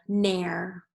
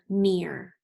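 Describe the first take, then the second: First: The vowel sounds like air in hair. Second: The vowel sounds like ear in hear. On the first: The speaker calls it wrong. "let's try it with air" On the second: The speaker calls it right. "We have one more with ear"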